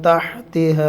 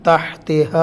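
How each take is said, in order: Both takes have the same delivery.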